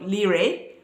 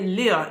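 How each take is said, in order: First: The final vowel is pronounced. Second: The final vowel is silent. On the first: The speaker calls it wrong. "instead of lire" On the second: The speaker calls it right. "how to say lire"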